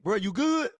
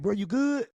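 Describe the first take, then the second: First: It sounds confrontational and ready to fight. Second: It sounds warm and affectionate.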